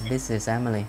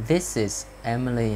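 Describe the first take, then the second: First: "this is Emily" run together as one phrase; connected-speech model of "this is Emily"; linked sounds. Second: Slow, careful "This is Emily"; teacher's slow model of "This is Emily"; slow reading. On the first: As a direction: join "is" onto "Emily". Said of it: "khi đọc nhanh mình cố gắng đọc nối âm lại". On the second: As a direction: take "This is Emily" word by word. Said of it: "khi đọc các câu này mình đọc chậm". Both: Shown as a demonstration.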